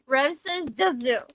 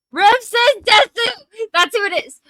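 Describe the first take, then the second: First: Said in the usual way. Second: Loud, triumphant realization; excited shout. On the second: Real, not acted. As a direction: shout it out as it suddenly comes to you. Suddenly remembers the username.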